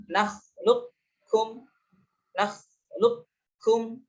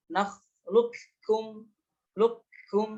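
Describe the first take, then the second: First: Nakhluqukum slowly, keeping a heavy q before kum; partial idgham. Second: Nakhluqukum slowly, q merged into a doubled k; full idgham. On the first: Teacher shows idgham nakis, Nakhluqukum keeping the heavy q. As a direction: chant Nakhluqukum drawn out, back-of-throat q without a bounce. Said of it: "memberikan sifat isti'la pada kaf". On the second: Teacher contrasts idgham kamil, nakhluqukum with no q heard. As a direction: chant nakhluqukum, lukum, going straight into kaf. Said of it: "idgham kamil". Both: Shown as a demonstration.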